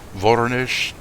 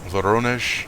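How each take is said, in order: First: The stress is on the first syllable. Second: The stress is on the second syllable.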